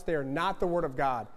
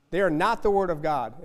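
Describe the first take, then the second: First: Said in the usual way. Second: The same line again, pushed louder; louder repeat. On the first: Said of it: "repeated for emphasis". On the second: Real, not acted. Preacher hammering it home to the congregation, louder. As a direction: drive the point home harder. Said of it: "repeated louder for emphasis".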